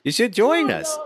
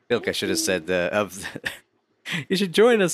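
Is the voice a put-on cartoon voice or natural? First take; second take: cartoon; natural. First: It is said in a silly put-on cartoon voice. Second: It is said in an ordinary speaking voice.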